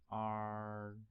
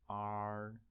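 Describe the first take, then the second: First: The pitch stays high and level. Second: The same.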